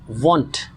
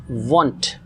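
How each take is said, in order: No difference in how they are said.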